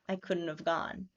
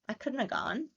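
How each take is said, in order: First: 'Have' is reduced to a short v sound. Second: 'Have' is reduced to just a schwa. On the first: "it'll sound like apostrophe V E" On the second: "they'll turn it into just a schwa"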